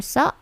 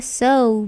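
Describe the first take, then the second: First: "so" cut short as "soh"; short "so" with no glide; wrong pure O. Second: "so" gliding to "sou"; long "so", ending on a U; English diphthong O. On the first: Teacher showing students wrong so, short pure vowel. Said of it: "bukan so". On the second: Teacher modelling so for students, gliding vowel. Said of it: "Seperti halnya so". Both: Shown as a demonstration.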